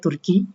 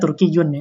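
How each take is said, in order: First: The word ends plainly on -i, ending dropped. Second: The word ends with a full -yyun ending. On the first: "kalau nggak dibaca akhirnya Turki" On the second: "dia sebenarnya Turki Jun ya"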